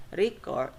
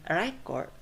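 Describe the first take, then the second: First: Record as verb, re-CORD; light ree, strong CORD in Record; second-syllable stress. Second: Record as noun, REC-ord; first-syllable stress. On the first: Teacher showing the verb, Record stressed re-CORD. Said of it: "that is a verb". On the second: Teacher showing the noun, record stressed REC-ord. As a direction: punch REC with a short e in record. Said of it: "that is a noun". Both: Shown as a demonstration.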